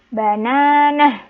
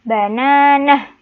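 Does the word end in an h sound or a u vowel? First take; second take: h sound; h sound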